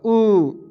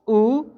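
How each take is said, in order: First: The vowel is held for longer. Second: The vowel is held only briefly. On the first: "बड़ा ऊ में ज़्यादा time लगेगा" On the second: "छोटा ऊ में कम टाइम लगेगा"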